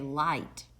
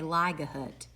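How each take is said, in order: First: The g and h are silent, long i. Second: The g and h are sounded out aloud. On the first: The speaker calls it right. "We say light" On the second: The speaker calls it wrong. "we don't say ligahut"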